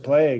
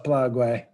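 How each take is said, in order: First: The word is said as one syllable. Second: The word is said as two syllables. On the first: It makes the thing sound safe. The speaker calls it wrong. "the left likes to make things sound safe, like oh, it's a plague" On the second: It keeps people from forgetting the danger. The speaker calls it right. "I use the Mexican pronunciation so that people don't forget"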